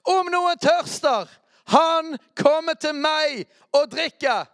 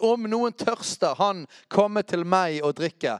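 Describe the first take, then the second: First: Loud shouted quote. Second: Slow, emphatic call, short of a shout; raised proclaiming quote. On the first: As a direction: bellow it out slowly, far higher and louder. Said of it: "så må vi rope". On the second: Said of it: "Jesus sto og ropte ut". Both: Acted.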